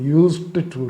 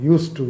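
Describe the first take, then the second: First: The d sound of 'used' is pronounced. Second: The d sound of 'used' is dropped. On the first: The speaker calls it wrong. "இல்லை" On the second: The speaker calls it right. "அதை யூஸ் டு அப்படி தான் pronounce பண்ணணும்"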